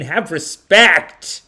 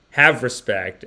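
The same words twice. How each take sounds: First: Slow, loud, drawn-out have respect; stern demand. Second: Said in the usual way. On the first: Real, not acted. Streamer scolding a chatter, stern and slow. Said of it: "scolding a chatter". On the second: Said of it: "repeats the demand".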